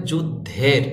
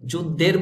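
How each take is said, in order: First: যুদ্ধের with a breathy aspirated dh; careful "juddher", aspirated ending on যুদ্ধের; correct pronunciation. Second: যুদ্ধের with a plain d, as "judder"; unaspirated "-der" ending on যুদ্ধের; wrong pronunciation. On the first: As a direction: push air through the ধ in যুদ্ধের. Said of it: "আপনাকে বলতে হবে". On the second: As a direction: say যুদ্ধের without aspirating the ধ. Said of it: "বললে হবে না". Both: Shown as a demonstration.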